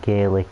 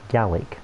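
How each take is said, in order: First: The first vowel sounds like the vowel in 'gay'. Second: The first vowel sounds like the vowel in 'gal'. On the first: "I pronounce it as Gaelic" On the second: "that to me would indicate that it's supposed to be spelt G A L L I C"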